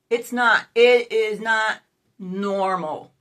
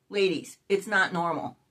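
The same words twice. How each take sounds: First: Loud, slow stress on "not"; forceful correction, "not" punched and stretched; emphatic insistence. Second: Said in the usual way. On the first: Real, not acted. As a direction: hammer "not" loudly, then let "normal" drop. Insists to viewers it's not normal.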